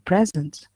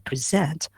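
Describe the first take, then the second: First: The stress is on the first syllable. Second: The stress is on the second syllable. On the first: It is a noun meaning a gift. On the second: It is a verb meaning to show or give.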